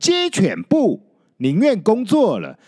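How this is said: The phrase breaks after the third character. They would rather not work. The speaker calls it right. "应该配合空格的位置，应该念成"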